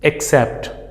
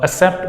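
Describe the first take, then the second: First: The double C is said as KS. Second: The double C is said as a plain S. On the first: The speaker calls it right. "but this is accept" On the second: The speaker calls it wrong. "people say it uh"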